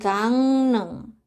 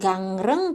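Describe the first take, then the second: First: The middle consonant is pronounced as an N. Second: The middle consonant is pronounced as an R. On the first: The speaker calls it right. "tapi gangneng" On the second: The speaker calls it wrong. "bukan gangreng"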